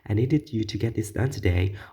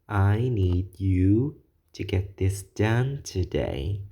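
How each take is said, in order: First: The sentence is spoken very quickly. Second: The sentence is spoken very slowly. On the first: The speaker sounds rushed and agitated. "if we have a super fast talker" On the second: The speaker sounds condescending, talking down to the listener. "if you slow down that rate of speech"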